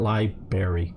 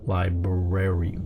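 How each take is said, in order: First: The first r sound is dropped. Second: Both r sounds are clearly pronounced. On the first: The speaker calls it wrong. "Not library" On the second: The speaker calls it right. "There's two R's in it. They're not next to each other"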